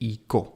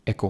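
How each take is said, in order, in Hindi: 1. पहला स्वर 'ee' जैसा बोला जाता है। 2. पहला स्वर 'eh' जैसा बोला जाता है। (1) "इसको भी इको नहीं बोलते हैं" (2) "एको बोलते हैं"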